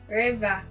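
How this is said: It is said in a Cameroonian accent. "Welcome Rain to say river"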